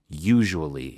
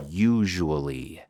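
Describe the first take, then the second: First: Said in the usual way. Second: Usually drawn out slowly. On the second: Shown as a demonstration. Teacher introduces the word usually. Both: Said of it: "allí normalmente usamos".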